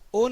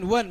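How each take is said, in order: First: The word begins with a plain vowel sound. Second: The word begins with a 'w' sound. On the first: The speaker calls it wrong. "ओन होत नाही ना" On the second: The speaker calls it right. "उच्चार बघा, व व वन"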